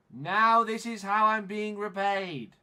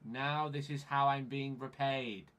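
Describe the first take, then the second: First: Loud, high, drawn-out complaint; raised-voice frustrated outburst; indignant shout. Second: Said in the usual way. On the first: Real, not acted. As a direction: shout it slowly in outrage. Repeats the complaint, now shouting.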